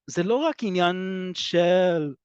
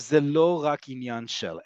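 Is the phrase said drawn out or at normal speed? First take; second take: drawn out; normal. First: The phrase is slowly stretched out and drawn long. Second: The phrase is said at an ordinary pace.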